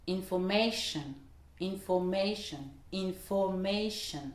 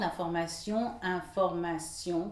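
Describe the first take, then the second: First: "information" with stress on MA, English way. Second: "information" said the French way, stress at the end; French pronunciation. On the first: Teacher models English "information" for learners, stress on MA. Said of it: "l'accentuation se fera juste avant sur le ma". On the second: Teacher gives the French "information" before the English, French way. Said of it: "Ça va donner". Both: Shown as a demonstration.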